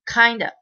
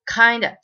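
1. 2つの単語は一つにつながり、弱い母音で終わります。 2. 2つの単語は一つにつながり、弱い母音で終わります。

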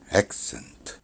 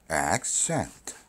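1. 강세 음절은 힘을 주어 밀어내듯 나와요. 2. 강세 음절은 낮은 음에서 부드럽게 올라가요. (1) "이런 식으로 힘주어 말하다 보니까" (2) "A를 100까지 끌어올려라. 액센트. 이렇게 발음하라"

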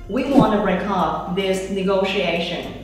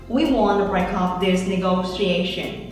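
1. 'Want to' được đọc thành hai từ đầy đủ. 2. 'Want to' được rút gọn thành 'wanna'.

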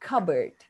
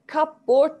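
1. Tek, kaynaşmış bir kelime gibi okunuyor. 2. İki birleşik kelime gibi okunuyor. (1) "ama telaffuz bambaşka" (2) "Cupboard diyesimiz geliyor çünkü birleşik isimmiş gibi"

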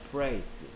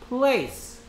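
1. 이 단어는 R 같은 소리로 시작해요. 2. 이 단어는 L 같은 소리로 시작해요.

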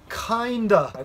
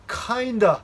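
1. 単語は速く言い、つなげて言います。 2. 単語は速く言い、つなげて言います。

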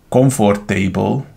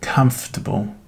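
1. A hangsúly a 'table' részen esik. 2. A hangsúly korán esik, nem a 'table'-n. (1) "Ha azt mondod, hogy comfortable, akkor én bizony így azt arra fogok gondolni" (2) "akkor bizony az nem table"

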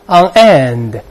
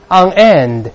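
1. 这两个词分开读，重音在end上。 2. 这两个词分开读，重音在end上。

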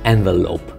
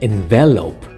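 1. 강세는 첫 번째 음절에 있습니다. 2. 강세는 첫 번째 음절에 있지 않습니다. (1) "액센트가 첫 음절에 있죠" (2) "동사는 envelope"

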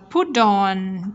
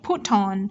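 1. Chữ t được đọc như d mềm. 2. Chữ t được đọc như t rõ.

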